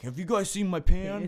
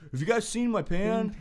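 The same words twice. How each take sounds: First: Higher, mock-innocent roommate voice; mimicking roommate. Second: Higher mock roommate voice, more insistent; mimicking roommate. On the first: Roommate asking housemates about his missing pan, mock voice higher. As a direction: ham up the clueless roommate asking around. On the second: Roommate asking housemates again about his pan, higher mock voice.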